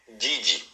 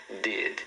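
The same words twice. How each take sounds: First: DID with an "ee" added, "didi"; wrong learner pronunciation. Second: DID low and soft, stopping on the D; correct final D. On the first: Teacher shows learners' habit, wrong pronunciation. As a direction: say "did" as two syllables, dee-dee. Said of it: "não fale". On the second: Teacher reassures learner then models, correct pronunciation. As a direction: say "did" with no "ee" after it. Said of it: "você procura não puxar esse I". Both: Shown as a demonstration.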